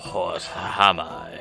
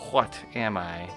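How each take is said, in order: First: It is said in a deep, gravelly old-man voice. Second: It is said in the speaker's plain, natural voice.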